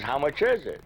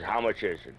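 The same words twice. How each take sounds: First: Customer asking. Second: Said in the usual way. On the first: Retold or imitated. Customer asks the price.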